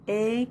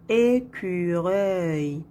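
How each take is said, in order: First: "Écureuil" in three separate beats, é, cu, reuil; split into syllables. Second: Said in the usual way. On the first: Shown as a demonstration. Teacher locating the sound in third syllable, split into syllables. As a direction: break "Écureuil" with a pause after each syllable. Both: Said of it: "dans la troisième syllabe".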